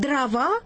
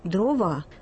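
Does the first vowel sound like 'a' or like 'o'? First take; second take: a; o. First: The unstressed first vowel sounds like 'a'. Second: The unstressed first vowel sounds like a clear 'o'. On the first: This is the standard speech that does not distinguish these vowels. "«Дрова» и «трава» там одинаковые гласные" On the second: This is the dialect speech that keeps the vowels distinct. "А носители окающих говоров различают"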